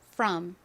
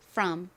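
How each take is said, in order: First: The vowel is an open 'uh' sound. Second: The same.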